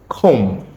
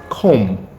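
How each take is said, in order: Both takes have the same delivery.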